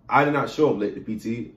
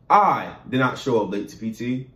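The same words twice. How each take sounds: First: The word "late" is stressed. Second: The word "I" is stressed. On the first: The arrival was possibly early rather than late. "means I did not show up late to P T, I possibly showed up early" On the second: Someone else was the one who arrived late. "means that I personally didn't show up late to P T, somebody else did"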